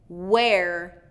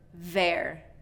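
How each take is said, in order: First: It begins with a rounded-lip w sound. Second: It begins with a v sound against the teeth. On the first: The speaker calls it right. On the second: The speaker calls it wrong.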